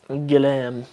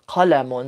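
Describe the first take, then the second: First: It begins with a hard g sound. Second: It begins with a deep q sound. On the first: This is the Libyan dialect form. "they say glam" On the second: This is the standard Arabic form. "instead of qalamun"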